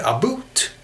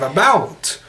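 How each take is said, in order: First: "a boot" for about, with an oo vowel; Canadian pronunciation. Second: "about" with an ow vowel, higher; American pronunciation. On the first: Contrasting Canadian with American, "a boot" with oo. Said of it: "it's just American with". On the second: Contrasting American with Canadian, "about" with ow. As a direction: say "about" with an open ow, as in out. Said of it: "instead of". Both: Shown as a demonstration.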